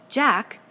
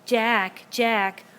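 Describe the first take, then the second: First: Louder, higher reprimand; sharp call. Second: Mocking, louder echo of the call; bitter mimicry. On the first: Ralph shouts Jack's name in warning. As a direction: snap his name out. Ralph calls Jack to order. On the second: Jack mocks Ralph's call, bitter louder mimicry. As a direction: parrot him back with spite. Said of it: "sounded in bitter mimicry". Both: A narrator's reading.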